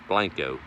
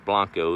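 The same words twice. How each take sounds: First: The name has a Texan English pronunciation. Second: The name has a Spanish pronunciation. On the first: "If you're speaking Tex-Mex, it's Blanco or redneck" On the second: "if you're speaking Spanish"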